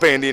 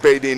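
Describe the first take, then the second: First: The name has an n sound before d. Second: The name has no n sound before d. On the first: The speaker calls it right. "It's Sawyer Bandine" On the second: The speaker calls it wrong. "I was saying Badine instead of Bandine earlier"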